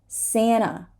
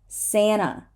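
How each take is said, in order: The two takes are said the same way.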